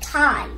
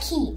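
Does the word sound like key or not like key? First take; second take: not like key; like key. First: The word does not sound like key. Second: The word sounds like key. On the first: The speaker calls it right. "pronounce it like chi" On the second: The speaker calls it wrong. "Do not pronounce it like key"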